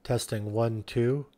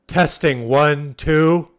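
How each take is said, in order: First: Softly into the walkie-talkie; a hushed mic check; quiet test. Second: Louder mic check, spoken up; loud test. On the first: Soft mic check into the walkie-talkie to show the speaker stays off. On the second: Loud mic check into the walkie-talkie to click the speaker on. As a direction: call it out firmly to trip the signal. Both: Shown as a demonstration. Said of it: "when you talk loudly".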